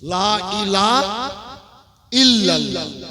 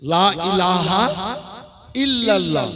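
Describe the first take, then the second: First: The 'ha' sound in ilaha is left out. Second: The 'ha' sound in ilaha is clearly pronounced. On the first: The speaker calls it wrong. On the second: The speaker calls it right.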